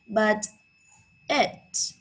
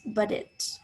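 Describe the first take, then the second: First: The T in 'but' is a clear T. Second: The T in 'but' is a quick tap.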